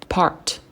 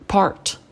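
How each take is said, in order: The two takes are said the same way.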